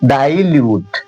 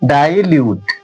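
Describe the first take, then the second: Both takes have the same delivery.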